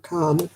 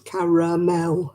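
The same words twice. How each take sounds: First: It is said with an American accent. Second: It is said with a British accent.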